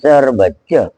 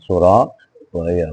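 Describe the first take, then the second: First: It is said with a Madurese pronunciation. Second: It is said with a Javanese pronunciation. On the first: "Kalau kata orang Medundan" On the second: "kalau orang Jawa Timur, Jawa Tengah"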